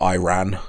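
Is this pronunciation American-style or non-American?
American-style. The name is said in an American way. The speaker calls it wrong. "not Iran"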